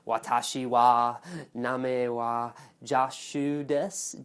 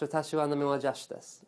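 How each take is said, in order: First: It is said with a strong American accent. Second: It is said with a Japanese-like accent.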